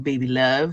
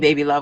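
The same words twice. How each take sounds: First: It is said in a suggestive, flirtatious tone. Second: It is said in a plain, casual tone. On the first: The speaker is making an unwanted advance. The speaker calls it wrong. "when someone you literally just met is like coming at you with that intent" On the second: The speaker is just greeting a friend warmly. The speaker calls it right. "As opposed to"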